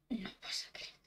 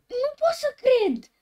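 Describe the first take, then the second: First: Soft, breathless whisper; hushed disbelief; scared whisper. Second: High, loud disbelief; real startled outcry; shocked shout. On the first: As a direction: whisper it as if afraid to be heard. Spooked by creepy game. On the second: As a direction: yell it at the screen. Shocked by game. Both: Real, not acted.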